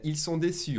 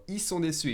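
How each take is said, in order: First: "ils" with its L clearly said; sounded L. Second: "ils" said as a bare i before "sont"; dropped L. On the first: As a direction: keep the L in "ils sont déçus". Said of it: "drop the L from the il". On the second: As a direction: drop the L in "ils sont déçus", fast speech. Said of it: "I will drop the L from the il". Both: Shown as a demonstration.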